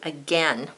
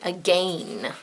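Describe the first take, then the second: First: The second vowel is a short, open E sound. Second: The second vowel rhymes with 'quail', a long A. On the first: This is how it is said in America. "in American English, we say again. We say it like a short A" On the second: This is how it is said in Britain. "if we were speaking British English, we would say again. So it would sound like quail"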